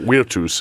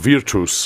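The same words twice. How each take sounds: First: It is said in classical Latin pronunciation. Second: It is said in ecclesiastical Latin pronunciation.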